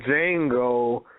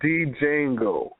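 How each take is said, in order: First: The D at the start is silent. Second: The D at the start is pronounced. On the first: The speaker calls it wrong. "Stop saying Django because of the J and ignore the D" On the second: The speaker calls it right. "Call that shit D Django"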